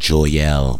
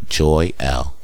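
First: The name runs together as one word. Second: The name is split into two parts. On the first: The speaker calls it wrong. "I saw it together, so I'm saying Joyelle, but it's not that" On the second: The speaker calls it right. "It's Joy L"

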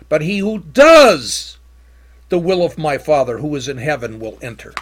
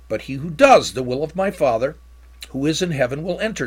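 First: The word 'does' is strongly emphasized. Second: The word 'does' carries no special emphasis.

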